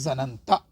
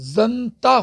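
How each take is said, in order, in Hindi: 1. एक स्वर दोनों 'n' ध्वनियों को अलग करता है। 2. दोनों 'n' ध्वनियाँ बिना किसी स्वर के आपस में मिल जाती हैं। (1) "इसको हमने खोल दिया... आसानी से बोला जा सके" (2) "ये होना क्या चाहिए था, जनता होना चाहिए था"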